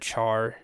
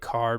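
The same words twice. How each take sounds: First: It begins with a ch sound, like charcoal. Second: It begins with a k sound, like character. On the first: The speaker calls it wrong. "I've always said char, even if that's incorrect" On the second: The speaker calls it right. "you should pronounce it char because it's character"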